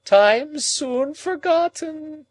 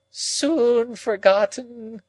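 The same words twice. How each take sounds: First: High, loud, very slow wail; moaning. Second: High, very slow moan. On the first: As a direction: moan it out even more desperately. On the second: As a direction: draw the words out in a grieving moan. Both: A narrator's reading. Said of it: "moaned Miss Havisham".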